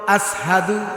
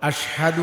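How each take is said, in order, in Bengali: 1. প্রথম স্বরধ্বনির পরের ব্যঞ্জনটি 's'। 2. প্রথম স্বরধ্বনির পরের ব্যঞ্জনটি 'sh'। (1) "আসহাদু এটা উচ্চারণ হতে হয়ে যেত" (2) "আশহাদু আন্না মুহাম্মাদার রাসূলুল্লাহ বলতে পারতো না"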